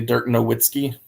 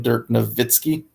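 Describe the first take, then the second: First: The name is said with an anglicized pronunciation. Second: The name is said with its native pronunciation. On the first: This is how most people say the name. The speaker calls it wrong. "everyone would say" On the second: This is how the name is really pronounced. The speaker calls it right. "it's definitely"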